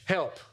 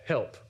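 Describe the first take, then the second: First: It is said with some passion. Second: It is said plainly and calmly.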